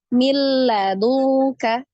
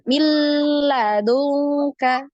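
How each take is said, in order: First: It passes straight into l without nasal hum. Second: A nasal hum is held before the l. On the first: The speaker calls it right. "tidak didengung" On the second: The speaker calls it wrong. "bukan milladunka, tidak seperti itu"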